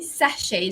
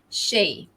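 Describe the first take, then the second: First: The stress is on the first syllable. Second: The stress is on the second syllable. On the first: This is the British pronunciation. "the stress is there on the first syllable" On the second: This is the American pronunciation. "The the stress falls on the shay"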